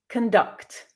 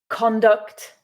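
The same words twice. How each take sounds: First: The stress is on the second syllable. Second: The stress is on the first syllable. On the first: It is used as a verb. "the second syllable with the verbs" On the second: It is used as a noun. "stressing the first syllable with the nouns"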